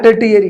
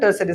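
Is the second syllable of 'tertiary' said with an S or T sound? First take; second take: T; S. First: The second syllable starts with a 't' sound. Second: The second syllable starts with an 's' sound. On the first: The speaker calls it wrong. "एक दोस्त था हमारा बोलता था टर्टियरी sector... pronounce नहीं हो पाता था" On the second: The speaker calls it right. "तो इसको क्या बोलते हैं"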